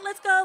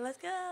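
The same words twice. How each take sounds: First: It is said in a blunt, fed-up voice. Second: It is said in a sweet, patient teacher voice.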